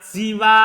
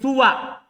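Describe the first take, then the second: First: It starts with i and ends long. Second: It starts with u and ends short. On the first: "yang mengkasro sinnya si. Kemudian dia mat" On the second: "mendoma sinah hasinnya ... Dan dia baca kosor"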